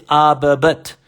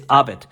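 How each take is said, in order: First: "Abet" said the wrong way, as the teacher warns against; the mispronounced "Abet" he says not to use; the incorrect way to say "Abet"; wrong pronunciation. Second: "Abet" said the right way, as the teacher models it; the proper "Abet" he tells students to say; the correct way to say "Abet"; correct pronunciation. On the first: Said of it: "we don't say Abet". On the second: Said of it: "We just say Abet". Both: Shown as a demonstration.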